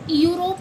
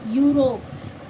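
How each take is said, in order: First: It starts with separate 'e' and 'yu' sounds. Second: It starts with a single 'yu' sound. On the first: The speaker calls it wrong. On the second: The speaker calls it right.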